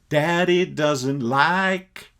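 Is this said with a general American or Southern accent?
Southern. It is said in a Southern American accent. "That's the way they talk in the South"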